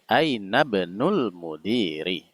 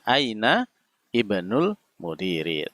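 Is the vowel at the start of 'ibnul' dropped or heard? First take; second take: dropped; heard. First: The words run together and the initial vowel drops. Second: The words are separated and the initial vowel sounds. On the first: "kalau dibaca nyambung, dia hamzah wasalnya tidak terbaca" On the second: "kalau dibaca terpisah juga masih bisa"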